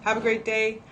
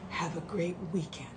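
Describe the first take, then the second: First: Said in the usual way. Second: Soft whispered sign-off; hushed farewell; whispered goodbye. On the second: Real, not acted. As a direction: breathe the goodbye to the viewers. Sign-off whispered after plain one.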